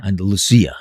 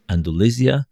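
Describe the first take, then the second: First: "Andalusia" said an-da-loo-SEE-ah; stressed see near the end of "Andalusia"; corrected pronunciation. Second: "Andalusia" said an-duh-LEE-zhuh, with a buzzed middle sound; voiced z sound in "Andalusia"; English pronunciation. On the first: Shown as a demonstration. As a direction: copy the Spanish-style "Andalusia" with an s. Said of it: "that's how you say it". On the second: Real, not acted.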